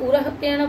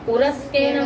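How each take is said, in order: First: A breathy h sound comes before the k. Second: An s sound comes before the k. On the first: "विसर्जनी रखेंगे" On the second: "विसर्जनी को सकार कर दिया"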